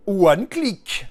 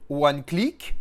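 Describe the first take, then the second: First: Booming announcement. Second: Said in the usual way. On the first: Pretend. Announcing the product name.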